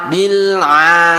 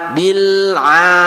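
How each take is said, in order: The two takes are said the same way.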